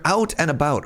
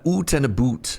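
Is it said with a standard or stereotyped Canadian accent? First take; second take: standard; Canadian. First: It is said in a plain, standard accent. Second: It is said in a stereotyped Canadian accent.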